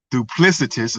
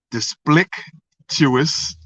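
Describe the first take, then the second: First: Said in the usual way. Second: Duplicitous garbled, slow and halting, syllables swapped; duplicitous mispronounced. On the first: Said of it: "excuse me". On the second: Real, not acted. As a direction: stumble slowly through duplicitous as "dis-plick-tuous". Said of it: "if I'm saying that right".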